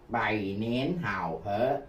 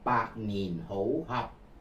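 First: The phrase is read with Mandarin pronunciation. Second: The phrase is read with Cantonese pronunciation. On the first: "Đó là tiếng Quan Thoại" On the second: "Nếu tôi đọc theo âm tiếng Quảng Đông"

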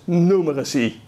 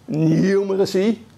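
First: The word is said with an American pronunciation. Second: The word is said with a British pronunciation. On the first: "The more American pronunciation is numeracy" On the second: "The British say the English pronunciation is numeracy"

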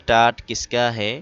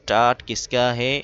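Both takes have the same delivery.

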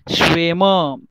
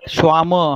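First: The first vowel is an 'eh' sound. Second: The first vowel is an 'ah' sound. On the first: The speaker calls it right. "please understand the pronunciation. Schwämme" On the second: The speaker calls it wrong. "not Schwamme"

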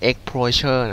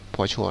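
First: It is pronounced with English-style sounds. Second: It is pronounced with Thai-style sounds. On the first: "อากูบอกว่าเฮ้ยมันอ่านว่า" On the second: "เอาเสียงไทยๆเลยก่อนเนาะง่ายดีอ่ะ"

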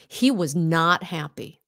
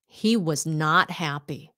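Both takes have the same delivery.

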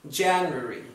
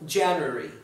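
No difference in how they are said.

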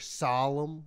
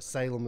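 First: The first syllable sounds like 'sol', as in solemn. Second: The first syllable sounds like 'sail', the usual way. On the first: An outsider says the name this way. The speaker calls it wrong. "She said solemn for some reason" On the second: Locals say the name this way. The speaker calls it right. "Which is like Salem"

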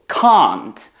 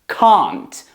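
First: It is said in a British accent. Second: It is said in a British accent.

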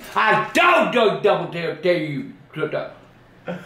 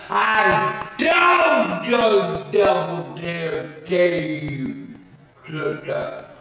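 First: It is said at normal speed. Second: It is said very slowly.

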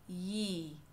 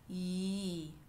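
The two takes are said the same way.

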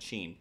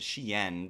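First: The name is said as one syllable. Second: The name is said with two syllables. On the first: This is what most people call it. "everybody calls it Sheen" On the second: This is the original name. "the realistic way of saying it is Shein, because that's like the original name"

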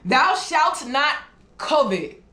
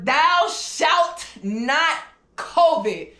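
First: The last word sounds like 'covet'. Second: The last word sounds like 'COVID'. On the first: The speaker calls it right. "That sounded better" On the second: The speaker calls it wrong. "Maybe I'm pronouncing it word COVID"

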